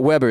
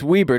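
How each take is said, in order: First: The first vowel is short, like 'web'. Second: The first vowel is long, like 'wee'. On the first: The speaker calls it wrong. "the second B that would make it Weber" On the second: The speaker calls it right. "I'm assuming it's Weber"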